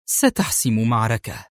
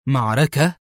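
First: Firm statement, falling at the end; controlled, decisive command. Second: Surprised echo, rising sharply at the end; startled one-word question; astonished. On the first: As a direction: state it with finality. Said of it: "أجابته في حزم". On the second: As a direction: repeat it in disbelief. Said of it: "هتف في دهشة". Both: A narrator's reading.

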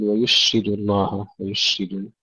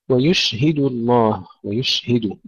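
First: ويشهد with h swallowed by sh; lost ha. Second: ويشهد with an audible h after sh; clear ha. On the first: Teacher showing the mistake, ha lost in ويشهد. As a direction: wrongly say ويشهد as wa-yushidu. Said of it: "لا تضيع في تفشي الشين". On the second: Teacher modelling for students, clear ha in ويشهد. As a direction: breathe out the هـ in ويشهد. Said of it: "ننتبه أن نظهرها". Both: Shown as a demonstration.

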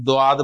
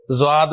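First: دواد، ض کو دال کی آواز سے ادا کیا; دواد، د کی آواز کے ساتھ بولیں; غلط تلفظ دواد. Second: زواد، ض کو زیڈ کی آواز سے ادا کیا; زواد، ز کی آواز کے ساتھ بولیں; غلط تلفظ زواد. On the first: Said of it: "کوئی اسے دواد بولتا ہے". (ض کو دواد کہنے والا غلط تلفظ) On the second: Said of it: "کوئی اسے زواد بولتا ہے". (ض کو زواد کہنے والا غلط تلفظ) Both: Shown as a demonstration.

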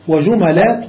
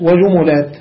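First: وجملات with the middle letter opened by a, wa-jumalat; وجملات said with fatha on the meem, rising at the end. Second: وجملات with the middle vowel echoing u, wa-jumulat; وجملات said with damma on the meem, falling at the end. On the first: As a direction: say وجملات as wa-ju-ma-lat, the m taking a. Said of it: "والفتح". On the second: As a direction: say وجملات as wa-ju-mu-lat, the m taking u. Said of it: "والضم اتباعا للخاء". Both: Shown as a demonstration.

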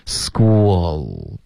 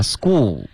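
First: "School" drawn out, lips relaxing into the l; relaxed dark L. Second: "school" with lips still pursed at the end; common learner error. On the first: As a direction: end "School" on tongue tip, lips loose. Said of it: "然后放松". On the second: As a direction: mispronounce "school", rounding through the final l. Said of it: "很多的学生就发". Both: Shown as a demonstration.

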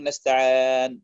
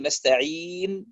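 First: نستعان with the long ee opened toward aa; distorted long ii. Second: Long pure ee vowel in نستعين; correct long ii. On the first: Teacher showing a recitation mistake, نستعان with an opened vowel. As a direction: bend the last vowel of نستعان into a long open e. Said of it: "يقول نستعان". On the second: Teacher giving students the correct recitation, نستعين with a pure ee. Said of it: "بدل أن يقول نستعين". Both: Shown as a demonstration.

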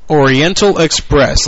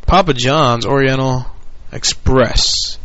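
First: Oriental Express drawn out slowly, louder; slow deliberate Oriental Express; slow stressed. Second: Said in the usual way. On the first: Real, not acted.

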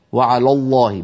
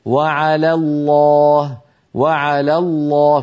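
First: وعلى الله with the لام of على made heavy like الله; تفخيم خاطئ للام على في وعلى الله; wrong heavy lām. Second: وعلى الله said slowly, لام of على thin and الله full; slow model: light lām in على, heavy in الله; ترقيق لام على وتفخيم لام الجلالة ببطء; correct, slow. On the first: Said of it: "فلا يصح أن يقول القائل". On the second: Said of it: "بل يقول". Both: Shown as a demonstration.

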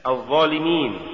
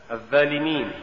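First: Said in the usual way. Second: الظالمين with ظ thinned to a plain ذ; faulty reading of الظالمين, ذ replacing ظ; mispronounced ظ. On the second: Shown as a demonstration. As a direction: say الظالمين with a light dh, no emphatic weight. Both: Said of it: "تقرأ لحنا".

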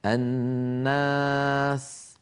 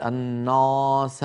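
First: "الناس" very slow, with a long thin aa; light alif. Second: "الناس" with a dark, backed aa; wrongly heavy alif. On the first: Teacher models alif after noon, light and drawn out. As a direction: draw out a fronted, light aa in "الناس". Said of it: "الألف بعد النون مرققة". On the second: Teacher shows what we don't say, heavy alif. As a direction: thicken the aa of "الناس" as the mistake. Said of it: "ولا نقول". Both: Shown as a demonstration.

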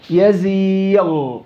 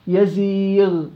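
First: "يزيغ" stretched slowly into a thick, rounded ghayn; over-heavy ghayn. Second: "يزيغ" with a long i and lighter final ghayn; relative tafkhim. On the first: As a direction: drag out a heavy غ ending "يزيغ". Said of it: "لا، شو يزيغ". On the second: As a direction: keep the غ in "يزيغ" unrounded. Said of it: "ساكنة ما قبلها ياء". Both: Shown as a demonstration.

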